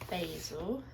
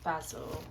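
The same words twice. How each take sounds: First: It is said the way locals say it. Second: It is said in the speaker's home British way.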